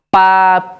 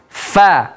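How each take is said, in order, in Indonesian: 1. Bunyi "fa" dibuat dengan merapatkan kedua bibir. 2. Bunyi "fa" dibuat dengan gigi atas pada bibir bawah. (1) "mempertemukan dua bibir, yaitu bibir bagian atas dan bibir bagian bawah dipertemukan" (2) "ujung gigi seri atas dipertemukan dengan batanus syafah"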